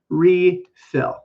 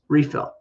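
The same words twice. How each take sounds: First: The word is said slowly and carefully. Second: The word is said quickly and lightly. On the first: "Now I just said it slowly" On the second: "but in fast English, we're going to say it like this"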